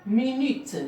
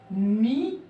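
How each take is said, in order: First: Said in the usual way. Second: MI-NU-TE in three separate drawn-out beats; syllable by syllable. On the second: Shown as a demonstration. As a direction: sound out Mi-nu-te, voicing the final te. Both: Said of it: "il y a trois syllabes".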